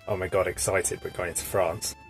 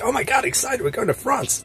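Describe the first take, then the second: First: It is said flatly, with little energy. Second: It is said with lively, excited energy.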